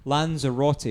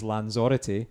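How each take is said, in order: First: Said in the usual way. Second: Lanzarote as lan-ZOR-ity; shifted emphasis. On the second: Shown as a demonstration. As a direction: punch the second syllable of Lanzarote. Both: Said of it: "yeah, the emphasis".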